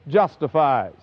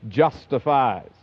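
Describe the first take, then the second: The two takes are said the same way.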